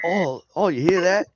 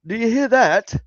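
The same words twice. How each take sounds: First: Higher-pitched mock Australian accent; botched British, sounding Australian. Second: High, loud British caricature; mock British accent. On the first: Mocking British people, accent sliding into Australian. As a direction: aim for British and slip into Australian. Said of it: "Oh, wait, that was Australian". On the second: Mocking British people hearing a noise, high British accent. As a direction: exclaim it as an exaggerated Brit. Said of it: "British people are like".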